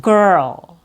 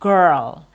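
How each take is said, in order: No difference in how they are said.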